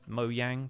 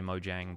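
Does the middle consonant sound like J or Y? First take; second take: Y; J. First: The middle consonant is a Y sound. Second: The middle consonant is a J sound. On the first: This follows the Swedish way of saying it. "I pronounce it with the Y sound instead of a J sound" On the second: This is how press releases and Americans say it. "occasionally I will switch and say"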